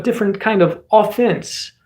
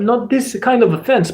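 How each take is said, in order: First: "offense" with a full "AW" first syllable, in mock Russian accent; offense as in attack. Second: "offense" stressed on the second syllable, in mock Russian accent; offense as in insult. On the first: Streamer sorting two meanings, "offense" said AW-fense in mock Russian. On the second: Streamer sorting two meanings, "offense" said uh-FENSE in mock Russian. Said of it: "but different kind of offense".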